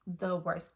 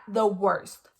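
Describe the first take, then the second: First: Said in the usual way. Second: The worst punched loud; emphatic repeat. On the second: Real, not acted. Insisting to viewers it was the worst whooping, loud stress. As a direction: hit worst with force. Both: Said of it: "This is the worst whooping".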